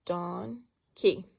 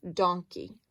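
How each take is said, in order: First: "Donkey" split into "don" and "key"; syllable by syllable. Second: Said in the usual way. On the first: Shown as a demonstration. Teacher checks both scoops for vowels, "Donkey" split into syllables. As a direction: say "Donkey" in two scoops with a gap between. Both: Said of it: "let's see if we have a s-, vowel in both scoops".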